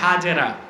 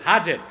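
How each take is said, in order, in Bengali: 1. নামটির শেষে একটি বাড়তি স্বরধ্বনি আছে। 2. নামটির শেষে কোনো স্বরধ্বনি নেই। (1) "যাকে আমরা বলি হাজেরা" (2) "শুদ্ধ উচ্চারণটা কি? হাজের।"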